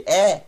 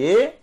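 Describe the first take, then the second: First: E said as an open "é" vowel. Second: E said as a close "ê" vowel; closed E. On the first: Teacher reviewing vowels for students, open E. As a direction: say E wide open, as "é". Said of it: "com o Segol". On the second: Teacher reviewing vowels for students, closed E. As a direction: say E with the closed "ê" sound. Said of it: "com o Tsere". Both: Shown as a demonstration.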